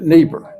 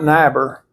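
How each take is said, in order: First: The second vowel of the pair is sounded. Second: The first vowel of the pair is sounded. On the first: The speaker calls it right. "you pronounce it Niebuhr" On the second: The speaker calls it wrong. "you pronounce it not Niebuhr"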